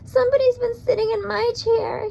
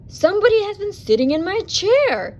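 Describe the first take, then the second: First: It is said in a high, squeaky voice. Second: It is said in a loud, growly voice.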